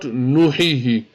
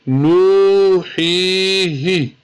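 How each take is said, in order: First: The vowels are said short, not stretched. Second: The nu and hi vowels are stretched long. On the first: The speaker calls it wrong. "Not nuhihi" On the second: The speaker calls it right. "we need to stretch the nu and the he"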